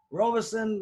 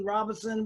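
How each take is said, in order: First: First syllable of "Robinson" as ROH, long o; alternate name pronunciation. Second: First syllable of "Robinson" as RAH, open vowel; alternate name pronunciation. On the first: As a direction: say "Robinson" as ROH-bih-sun. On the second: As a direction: say "Robinson" as RAH-bin-sun. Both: Shown as a demonstration. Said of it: "either one is fine".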